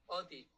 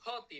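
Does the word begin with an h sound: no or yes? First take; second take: no; yes. First: The word begins with a vowel, no h. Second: The word begins with an h sound. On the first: "Así se pronuncia" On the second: "En erasmiano de, tendrían que decir HOTI"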